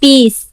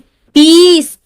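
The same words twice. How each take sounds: First: The vowel is kept short. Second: The vowel is held long. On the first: "short sound है ना" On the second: "जहां लंबा sound है पीस"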